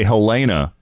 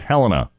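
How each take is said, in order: First: The stress falls on the second syllable. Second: The stress falls on the first syllable. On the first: The speaker calls it wrong. "A lot of people say Helena, but the emphasis should be on the first symbol, not the second" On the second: The speaker calls it right. "It's Helena"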